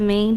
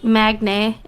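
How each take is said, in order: First: The g sound is silent in the name. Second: The g sound is pronounced in the name. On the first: The speaker calls it right. "instead of Maine" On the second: The speaker calls it wrong. "how many people say Magne instead of Maine"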